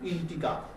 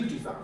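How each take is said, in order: First: The middle consonant is a hard g sound. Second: The middle consonant is a j sound. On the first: "অনেকে জি কে গয়ের মতো উচ্চারণ করে" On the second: "জি এর মতো উচ্চারণ হয় ইন্টিজার"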